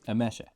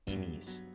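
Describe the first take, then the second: First: The middle consonant is an sh sound. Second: The middle consonant is a plain s sound. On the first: "The S is sh, like in shoe" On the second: "I kind of read it as Emis"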